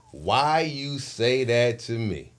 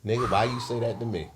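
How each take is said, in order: First: Slow, drawn-out question; slow challenge. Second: Said in the usual way. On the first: Retold or imitated. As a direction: stretch the question out deliberately. Repeats his challenge, second slower.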